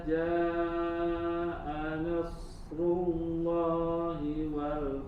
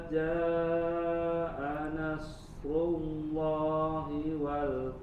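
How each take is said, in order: Both takes have the same delivery.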